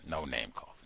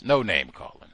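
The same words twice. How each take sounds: First: Much lower and softer; quiet aside. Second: Said in the usual way. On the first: Real, not acted. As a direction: scold yourself under your breath. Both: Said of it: "self-correction repeated".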